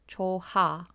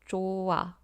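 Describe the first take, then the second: First: The h sound is pronounced strongly and clearly. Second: The h sound is softened and flows into the vowel. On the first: The speaker calls it wrong. "you might read them as 초하" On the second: The speaker calls it right. "Listen to my pronunciation of the word"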